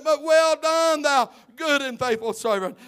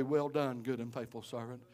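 First: Shouted blessing. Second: Gentle blessing. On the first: Preacher praising the church workers, loud shouted blessing. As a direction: proclaim it over them. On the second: Preacher telling the kitchen cook the Lord's praise, soft and tender. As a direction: lower and much softer, tender. Lord's words to Sister Dallas. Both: Acted.

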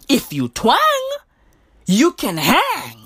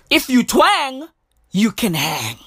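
First: Slow, swooping "hang" to land the slogan; drawn-out slogan. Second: Said in the usual way. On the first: Real, not acted. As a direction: stretch "twang" and "hang". Repeats slogan with drawn-out twang.

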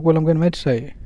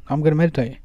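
First: Said as if it's obvious; a casual, self-evident "of course"; matter-of-fact. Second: Plainly obvious, nothing to explain; matter-of-fact. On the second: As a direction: toss it off as if she should know. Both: Shown as a demonstration. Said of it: "Say it like that".

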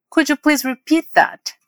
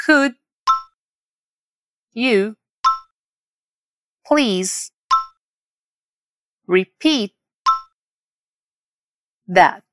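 First: Slow, connected "Could you please repeat that", pitched higher; whole model phrase. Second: "Could", "you", "please", "repeat", "that" with long pauses between; word by word. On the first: Teacher modelling how to ask for a repeat, slow and connected. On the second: Teacher drilling learners, word by word. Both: Shown as a demonstration. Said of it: "Vamos repetir palavra por palavra agora".

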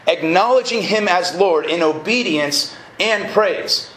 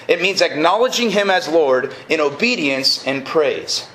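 First: Slow, measured restatement with "Acknowledging" weighted; slow emphatic repeat. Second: Said in the usual way. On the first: Real, not acted. Preacher repeating a definition of knowing God, slow and emphatic. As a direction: repeat it slowly, letting each phrase land.

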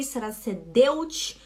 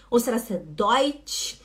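First: Deutsch said as "de-ootch" with a rise. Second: Deutsch said as "doitch" with a rise. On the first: Teacher quizzing students, trying the wrong Deutsch. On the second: Teacher quizzing students, trying the right Deutsch. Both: Shown as a demonstration. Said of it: "como que se fala esse tal desse E U".

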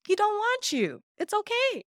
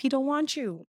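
First: Higher, sing-song mock pity on "He don't want you"; teasing sing-song pity. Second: Said in the usual way. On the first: Real, not acted. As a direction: croon it like fake sympathy. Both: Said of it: "repeated mockingly".

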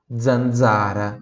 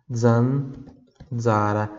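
First: Said in the usual way. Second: Zanzara stretched slowly, zan-za-ra, each dz voiced; very slow syllables. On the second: Shown as a demonstration. Teacher slows Zanzara right down for students. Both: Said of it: "como se fosse assim, ó".

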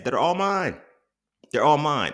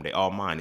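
First: Higher and louder, proud and gloating; emphatic boast. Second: Said in the usual way. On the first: Real, not acted. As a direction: crow it, they're all yours. Gloating over owning his ads.

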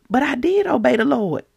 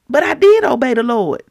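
First: Higher-pitched self-defence at normal volume; mild pleading objection; acted protest. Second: Louder, higher repeat of the objection; emphatic acted insistence; insistent protest. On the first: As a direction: insist mildly on DID. Saul protests to Samuel, first take. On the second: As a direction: push hard on DID in self-defence. Saul repeats his protest more forcefully.

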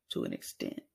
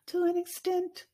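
First: Said in the usual way. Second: Higher lilting repeat; high sing-song. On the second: Shown as a demonstration. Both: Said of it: "repeated qualifier".

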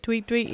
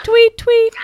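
First: Said in the usual way. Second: Tweet, tweet chirped much higher and louder; high bird chirp "tweet, tweet"; birdsong. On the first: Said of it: "It's not a bird". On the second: Pretend. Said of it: "Only joking. It's not a bird".

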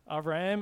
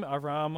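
First: Aram with a flat a, rising; trying a name. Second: Aram with a broad ah, flat; second try at a name. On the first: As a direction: Aram tried as "A-ram", rising like a question. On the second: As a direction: Aram said "Ah-rahm", broad and level. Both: Shown as a demonstration. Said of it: "I don't know really how to pronounce it".

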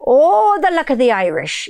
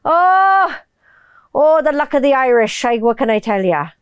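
First: Bad Irish accent with a high, swooping "Oh"; crazy-pirate Irish accent. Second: Lilting Irish accent, starting high. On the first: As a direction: overdo the Irish until it turns pirate. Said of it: "they sound like a crazy pirate". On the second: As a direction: do a believable Irish accent, not piratical. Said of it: "I can do fucking vocal matching without sounding like a". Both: Shown as a demonstration.

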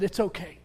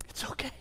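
First: Said in the usual way. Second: "It's okay" breathed in a soft whisper into a friend's ear; hushed whispered reassurance. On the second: Retold or imitated. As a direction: comfort him with a whisper. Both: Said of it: "leaned down and whispered".

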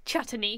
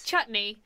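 First: Chutney stretched into three syllables, chut-uh-nee; odd pronunciation. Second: Said in the usual way. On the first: Retold or imitated. Quoting Schmidt from New Girl, mispronouncing chutney. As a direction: add an extra vowel inside chutney. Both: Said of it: "he calls chutney chutney".

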